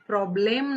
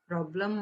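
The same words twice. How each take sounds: First: The last syllable has a clear e vowel. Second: The last syllable has a weak uh vowel. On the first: The speaker calls it wrong. "प्रॉब्लेम नाही म्हणायचंय" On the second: The speaker calls it right. "प्रॉब्लेम म्हणायचं"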